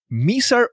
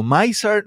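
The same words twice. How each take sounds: First: Miser said as MEE-sar, with an "ee" vowel; tentative pronunciation. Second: Miser said as MY-sar, with an "eye" vowel; alternative pronunciation. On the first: Host tries a cyclist's surname, Miser as MEE-sar. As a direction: pronounce Miser with a first syllable like "me". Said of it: "no sé cómo se pronuncia el nombre". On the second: Host offers another reading of the surname, Miser as MY-sar. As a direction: pronounce Miser with a first syllable like "my". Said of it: "tú me corriges si lo pronuncio bien". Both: Shown as a demonstration.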